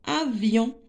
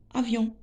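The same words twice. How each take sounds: First: Avion in two parts, a-vion; teacher dividing Avion by syllable; split into syllables. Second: Said in the usual way. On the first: Shown as a demonstration. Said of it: "on va découper les mots en syllabes".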